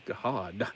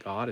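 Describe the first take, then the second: First: God stretched into two syllables, "Ga-hod"; Southern extra syllables. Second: Said in the usual way. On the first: Shown as a demonstration. Showing viewers Southern speech, God said as "Ga-hod". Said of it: "two or three syllables here". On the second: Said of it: "God is not God".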